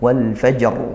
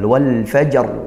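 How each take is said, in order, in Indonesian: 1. Frasa berhenti pada konsonan r terakhir. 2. Frasa berhenti pada konsonan r terakhir.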